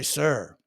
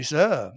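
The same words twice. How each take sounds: First: "sir" with a full American R at the end; R pronounced. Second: "sir" said as "suh", no R; R left off. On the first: Comedian showing what the British don't say, R-ful "sir". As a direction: say "sir" with the R clearly sounded. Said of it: "they don't say sir". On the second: Comedian showing how posh Brits say it, R-less "sir". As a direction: drop the R at the end of "sir". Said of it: "They leave off the R". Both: Shown as a demonstration.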